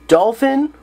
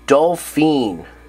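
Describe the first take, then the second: First: The last syllable has a short 'i' vowel. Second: The last syllable has a long 'ee' vowel.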